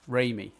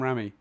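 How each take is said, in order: First: The first syllable sounds like 'ray'. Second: The first syllable does not sound like 'ray'. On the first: The speaker calls it right. "It's Raimi. Like Ray" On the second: The speaker calls it wrong. "I'm calling him Sam Raimi"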